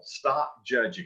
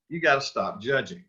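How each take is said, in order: First: Slow, firm stress on stop; plain and simple. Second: Said in the usual way. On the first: Shown as a demonstration. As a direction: lean on stop in stop judging. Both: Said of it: "just plain and simple".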